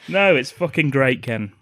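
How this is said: It is said in a sarcastic tone.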